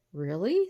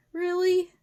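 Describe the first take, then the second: First: Said in the usual way. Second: High, loud creature voice; wolf calling out. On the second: A narrator's reading. Wolf challenges professor through the door, loud and high. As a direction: call a sharp, high challenge. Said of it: "called the wolf".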